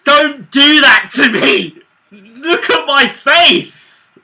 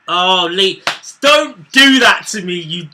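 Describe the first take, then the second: First: High, slow, furious shout. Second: Loud pleading groan; exasperated loud plea. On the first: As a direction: yell at him to stop. Yelling at teasing mate. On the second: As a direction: beg him loudly to stop. Mate teasing a goal call. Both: Real, not acted.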